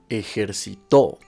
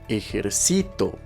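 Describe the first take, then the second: First: The stress is on the final syllable. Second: The stress is on the second-to-last syllable. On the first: It is a past-tense verb in the third person. "si se encuentra en la última sílaba, sonará de la siguiente forma" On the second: It is a present-tense verb in the first person. "si se encuentra en la penúltima sílaba, sonará de la siguiente forma"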